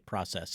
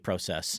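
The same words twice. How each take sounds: First: It is said with an American accent. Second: It is said with a non-American accent.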